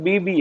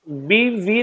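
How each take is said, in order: First: The second consonant is a b sound. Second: The second consonant is a v sound. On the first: It is part of the case name. The speaker calls it right. "बीबी है" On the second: It would mean wife. The speaker calls it wrong. "बीवी नहीं है"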